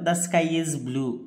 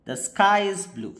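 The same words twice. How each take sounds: First: The pitch stays flat without a clear fall. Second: The pitch starts high and falls at the end. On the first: "tone of voice use చేయలేదు ఎక్కడ కూడా మనం" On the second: "falling tone"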